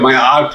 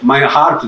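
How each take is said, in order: First: The h in heart is dropped, French style. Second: The h in heart is clearly pronounced. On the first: "the French cannot pronounce the H" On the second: "Every time you say my heart"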